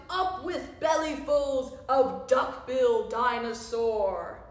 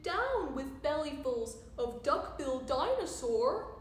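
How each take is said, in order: First: Loud, rowdy battle chant; long bellowed rallying cry; shouted slogan. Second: Lightly hooted slogan; mild story-time chant, bouncing along; hooted protest. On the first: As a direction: shout every beat like a war cry. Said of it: "And they shouted". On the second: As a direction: hoot it gently as a protest. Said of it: "and he hooted". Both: A narrator's reading.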